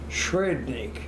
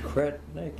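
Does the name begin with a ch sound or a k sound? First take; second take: ch sound; k sound. First: The name begins with a ch sound. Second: The name begins with a hard k sound. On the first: This is the original form from the homeland. "the C has a little curlicue above it. And that is a CH. And the T is a D" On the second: This is how the family says the name now. "Just Kretnik"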